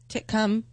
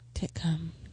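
First: The name is said at normal speed. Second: The name is said slowly.

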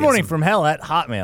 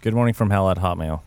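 First: It is said with more enthusiasm and energy. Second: It is said flatly with little energy.

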